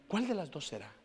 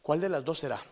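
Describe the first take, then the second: First: Said in the usual way. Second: Louder question. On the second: Shown as a demonstration.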